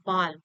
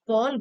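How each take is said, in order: First: The vowel is an open 'aa' sound. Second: The vowel is a rounded 'aw' sound. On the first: This is the Hindi pronunciation. "Hindi में बोलते हैं बाल" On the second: This is the English pronunciation. "English में बॉल बोलते हैं"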